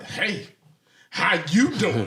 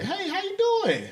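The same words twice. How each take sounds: First: It sounds like a hostile, aggressive greeting. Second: It sounds like a friendly greeting.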